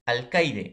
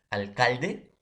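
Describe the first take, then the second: First: Alcaide said with an I glide, al-CAI-de; teacher says alcaide, stressing the I; spoken demo. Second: Alcalde said with a clear L sound, al-CAL-de; teacher says alcalde, stressing the L; spoken demo. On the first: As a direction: alcaide with the I sound clear and a drawn-out falling end. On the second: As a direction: alcalde with the L plainly heard, rising at the end. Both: Shown as a demonstration. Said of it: "va a ser la I".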